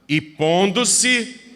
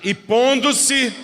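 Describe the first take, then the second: First: It is said loudly. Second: It is said even more loudly.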